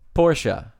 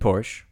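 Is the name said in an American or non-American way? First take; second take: non-American; American. First: The name is said in a non-American way. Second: The name is said in an American way.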